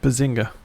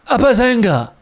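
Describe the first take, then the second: First: It is said with low energy. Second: It is said with high energy.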